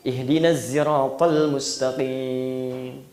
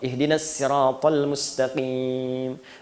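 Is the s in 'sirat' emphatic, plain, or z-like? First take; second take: z-like; plain. First: The s in sirat is blended toward z. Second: The s in sirat is a plain light s. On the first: "shad pakai zai" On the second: "Pakai sin"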